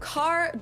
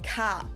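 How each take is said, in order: First: The final R sound is pronounced. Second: The final R sound is dropped. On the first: "Instead of" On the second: "Germans might say"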